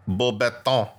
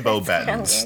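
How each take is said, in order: First: The name is said in a French-style way. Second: The name is said in an English-style way. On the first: "that's how they would say it. French, maybe" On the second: "But we say Bobatons"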